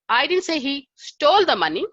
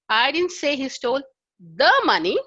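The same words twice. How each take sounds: First: The stress is on "stole". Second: The stress is on "the".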